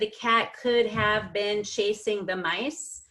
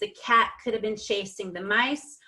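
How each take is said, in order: First: The words could have are said in full. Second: The words could have are contracted together. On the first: "instead of"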